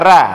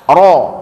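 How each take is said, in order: First: The r is light, with an open a vowel. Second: The r is heavy, with a rounded o vowel. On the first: The speaker calls it wrong. "jangan dibaca ra, Kalau ra itu tipis namanya" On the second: The speaker calls it right. "tapi dibaca ro, Ro tebal"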